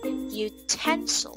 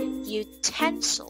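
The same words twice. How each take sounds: First: The stress is on the second syllable. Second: The stress is on the second syllable.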